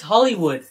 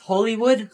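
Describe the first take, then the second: First: "Hollywood" asserted as the standard pronunciation; corrected pronunciation of Hollywood. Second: "Hollywood" offered as the disputed pronunciation; questioned pronunciation of Hollywood. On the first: Corrects a companion on the place name, standard "Hollywood". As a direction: firmly correct how "Hollywood" is said. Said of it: "No, it's pronounced Hollywood". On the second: Questions how the place is pronounced, alternative "Hollywood". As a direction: query the other way of saying "Hollywood". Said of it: "Isn't it pronounced Hollywood?". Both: Acted.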